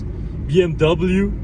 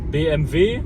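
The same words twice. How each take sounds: First: The letters are said with English pronunciation. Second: The letters are said with German pronunciation.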